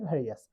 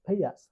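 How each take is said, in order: First: ভেরিয়াস with a clear r in the middle; R pronounced. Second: ভেইয়াস with no r in the middle; R left out. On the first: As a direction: sound the r in ভেরিয়াস. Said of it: "আর এর উচ্চারণ হচ্ছে". (র উচ্চারণ করে ভেরিয়াস) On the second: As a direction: say ভেইয়াস skipping the r of "various". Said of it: "আর এর উচ্চারণ না করলে". (র বাদ দিয়ে ভেইয়াস) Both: Shown as a demonstration.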